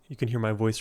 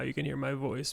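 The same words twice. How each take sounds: First: The voice is smooth with no creak. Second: The voice is creaky with vocal fry. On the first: "no vocal fry" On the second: "more vocal fry"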